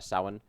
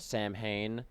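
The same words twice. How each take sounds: First: The word is said with a Gaelic pronunciation. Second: The word is said with an English-style pronunciation. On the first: The speaker calls it right. "but it's it's uh" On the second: The speaker calls it wrong. "a lot of people mispronounce it. Um, they call it Samhain"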